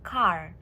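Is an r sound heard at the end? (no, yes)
yes. The word ends with an audible r sound. "There, there is R there"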